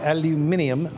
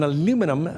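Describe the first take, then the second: First: It is said the British way, five syllables. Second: It is said the American way, four syllables. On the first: "as the Brits would say" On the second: "They use an aluminum"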